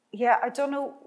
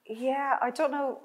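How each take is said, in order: Both takes have the same delivery.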